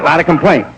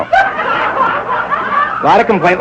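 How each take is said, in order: First: Said in the usual way. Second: Very high, very slow mock wail; drawn-out squeal. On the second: Shown as a demonstration. Comic repeats complaint to the audience as a squeal. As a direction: stretch it into a shrieking wail.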